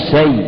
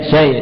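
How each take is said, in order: The two takes are said the same way.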